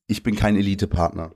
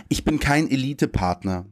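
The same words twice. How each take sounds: First: Said in the usual way. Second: "Ich bin kein Elite-Partner" read slightly higher as a poem title, with stress on "kein"; poem title read aloud. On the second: Shown as a demonstration. Poet opens his reading with the title "Ich bin kein Elite-Partner". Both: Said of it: "Und das Gedicht heißt".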